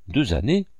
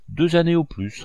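First: «années» monte à la fin, en question; intonation interrogative. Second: Said in the usual way. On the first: A narrator's reading. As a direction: reprendre «Deux années?» en montant sur «années». Michaud reprend, étonné, en question. (Michaud répète, surpris, «années» montant)

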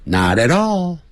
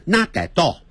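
First: "not at all" flapped to "na-re-ro", all run together; smooth, linked "not at all". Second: "not at all" with each t hard and the words apart; stiff, unlinked "not at all"; wrong not at all. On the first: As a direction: let the t's tap lightly in "not at all". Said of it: "不是这样念". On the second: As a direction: clip "not at all" word by word. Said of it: "不要念成". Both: Shown as a demonstration.

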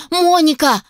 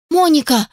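First: Higher, urgent call of Моника; warning cry. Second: A higher, despairing Моника; dismayed plea. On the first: Inventor shouts a warning to his assistant, urgent cry. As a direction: cry out Моника to stop her. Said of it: "воскликнул, предостерегая её". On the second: Inventor pleads with his departing assistant, dismayed. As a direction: clutch your head and plead Моника. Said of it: "схватился я за голову". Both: Acted.

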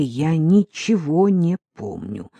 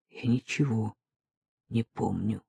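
First: Said in the usual way. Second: Softer, numb repetition; quiet repeat. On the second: Acted. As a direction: say it again, barely audible. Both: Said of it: "тихо повторил я".

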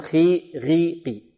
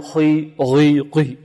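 First: خي غيقي with a clear thin i, no itbaq; correct open kasra. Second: خي غيقي drawn slowly with a dark, covered i; wrongly over-heavy kasra. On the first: Teacher correcting the error, light open i after each letter. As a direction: open up خي غيقي, keeping the i unpressed. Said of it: "وإنما نقول". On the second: Teacher showing the mistake to avoid, over-heavy covered vowels. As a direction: make خي غيقي too heavy, as if they had itbaq. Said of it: "خطأ، وإنما نقول". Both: Shown as a demonstration.

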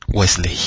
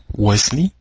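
First: Wesley ending in a spelt-out "ley"; Wesley with the E of -ley sounded; wrong pronunciation. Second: Wesley ending in a short "lee"; Wesley with the E of -ley silent; correct pronunciation. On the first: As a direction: say Wesley as wes-LAY, falling at the end. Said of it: "Se oye hasta feo". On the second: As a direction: say Wesley as WES-lee, rising at the end. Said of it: "así se pronuncia". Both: Shown as a demonstration.

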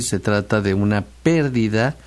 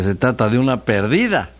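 First: "pérdida" stressed on the first syllable, PÉR-di-da. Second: "perdida" stressed on the middle syllable, per-DI-da. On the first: Host contrasting word meanings, "pérdida" stressed on PÉR. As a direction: hit the PÉR of "pérdida", ending on a rise. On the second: Host contrasting word meanings, "perdida" stressed on DI. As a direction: lean on the DI of "perdida", then fall. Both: Shown as a demonstration. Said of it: "tampoco es lo mismo decir".

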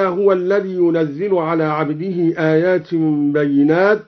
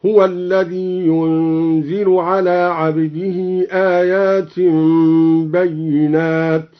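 First: Said in the usual way. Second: ينزل said as "yunzil" with no doubled zay, slowly; slow recitation, ينزل as yunzil; ينزل light, unstressed. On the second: Shown as a demonstration. (ينزل بالتخفيف بتلاوة بطيئة) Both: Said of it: "قرأ الدوري بتخفيف ينزل هكذا".

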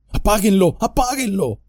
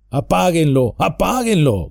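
First: High, begging plea; pleading. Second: Higher, urgent mild shout from inside the tree. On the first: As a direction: beg them desperately to stop. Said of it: "suplicó Merry". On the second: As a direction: yell at them to put it out. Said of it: "gritó Merry". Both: Acted.

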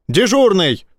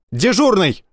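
First: Yelling. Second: High barked call; harsh barking commands. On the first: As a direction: yell down the corridor. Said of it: "заорал он". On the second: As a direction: bark it into the collar mic. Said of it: "вдруг рявкнул он себе в воротник". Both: A narrator's reading.

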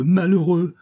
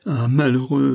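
First: Frantic terror rising. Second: Frantic terror. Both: A narrator's reading. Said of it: "répéta-t-elle avec le délire de l'épouvante".

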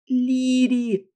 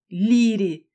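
First: High, loud wailing protest; wailing cry. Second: Delighted cry. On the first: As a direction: howl her name in dismay. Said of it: "взвыла Кася". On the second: Kayden delighted. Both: Acted.

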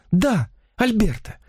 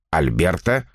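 First: Slow, much higher feminine reply; infatuated confirmation. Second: Automatic, questioning repeat; mechanical echo. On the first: Woman confirms her lover's name to the writer, high infatuated voice. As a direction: confirm the name dreamily, pitched well up. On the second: Stunned writer echoes the rival's name, mechanical questioning tone. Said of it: "машинально повторил он". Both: A narrator's reading.

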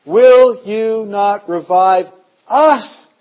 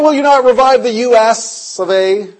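First: "us" slow and weighted at the end; stress on us. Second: "U S of A" spelled out letter by letter; wrong reading. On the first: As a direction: draw out "Will you not revive us?", leaning on "us". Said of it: "Us is me". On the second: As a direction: say "the U S of A" as the country's letters. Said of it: "It's not". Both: Shown as a demonstration.

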